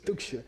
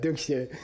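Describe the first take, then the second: First: It is spat out with a disgusted face. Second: It is said plainly without any disgust. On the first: The speaker calls it right. "you make a face. ... you spit a little bit" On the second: The speaker calls it wrong. "it's not like duksha"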